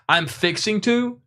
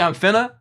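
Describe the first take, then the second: First: Every syllable of the phrase is said in full. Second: The phrase is slurred into fewer syllables. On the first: "instead of saying I'm fixing to" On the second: "slur those and cut down the syllable count"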